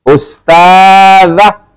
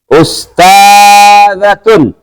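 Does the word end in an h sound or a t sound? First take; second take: h sound; t sound. First: The word ends in a soft h sound. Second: The word ends in a t sound plus -un. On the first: "Kalau dia dimatikan belakangnya, maka dia berbunyi kayak ha" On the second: "Kalau dia dibaca jadi ta"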